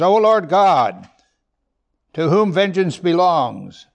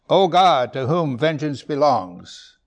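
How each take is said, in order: First: Loud, slow, proclaiming scripture; first take, booming and slow; emphatic reading. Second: Said in the usual way. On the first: Acted. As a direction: declare it like a prophet.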